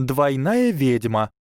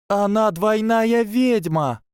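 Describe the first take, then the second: First: Slower, higher, stressing Двойная; repeated firmly. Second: Shrieked way up high, slow, voice breaking; high voice cracking. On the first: Tracey repeating to Hermione, slow and insistent. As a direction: lean on Двойная, slowly. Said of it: "повторила Трейси". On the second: Tracey announcing the double witch, voice cracking high. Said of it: "завопила Трейси настолько высоким голосом, что он сорвался". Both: A narrator's reading.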